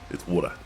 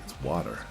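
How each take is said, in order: First: It is said with an Australian accent. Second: It is said with an American accent. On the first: "in Australia"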